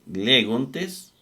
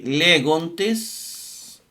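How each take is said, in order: First: Said in the usual way. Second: "legontes" drawn out very slowly, each syllable clear; slow spelled-out legontes. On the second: Shown as a demonstration. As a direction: stretch out "legontes" slowly, le-gon-tes, for students to copy. ("legontes" pronunciado muy despacio, sílaba por sílaba) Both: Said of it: "eh, legontes".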